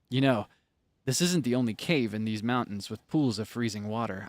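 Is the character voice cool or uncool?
cool. The character voice sounds very cool.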